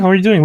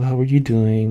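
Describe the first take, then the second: First: The voice is clear and fully awake. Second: The voice is soft, slow and sleepy. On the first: The person seems as if they never slept. "there was like no grogginess in in his voice" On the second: The person has just woken up. "really groggy and like just kind of like soft"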